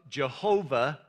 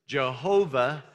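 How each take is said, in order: Both takes have the same delivery.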